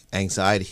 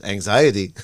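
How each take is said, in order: First: Said in the usual way. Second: Louder, mock-disbelieving echo of a word; lightly mimicked parental disbelief; imitating incredulous dad. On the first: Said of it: "He always goes". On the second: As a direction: repeat it like dad finds it crazy. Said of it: "He looks at you like you're crazy".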